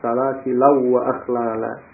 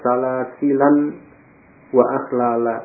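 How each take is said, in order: First: The n sound merges into the following w. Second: The n sound is pronounced before the w.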